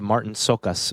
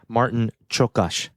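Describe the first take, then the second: First: The surname begins with an s sound. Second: The surname begins with a ch sound. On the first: The speaker calls it wrong. "I always said" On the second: The speaker calls it right. "but it's"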